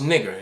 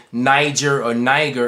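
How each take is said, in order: First: Short i and hard g, rhyming with "bigger"; first vowel short, as in "big"; claimed correct pronunciation. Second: "Niger" with a long i, as in "eye"; mistaken pronunciation. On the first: Showing viewers the Bible word, claimed short-i pronunciation. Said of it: "It's actually pronounced". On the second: Correcting what people say, mistaken long-i "Niger". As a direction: say "Niger" with a long first vowel. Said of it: "and it's not". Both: Shown as a demonstration.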